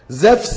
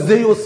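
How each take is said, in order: First: The name is said as Zefs, with an f. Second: The name is said as Zeus, with oo. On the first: This is the modern Greek pronunciation. "بالنطق اليوناني الحديث" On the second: This is the ancient Greek pronunciation. "بالنطق اليوناني القديم"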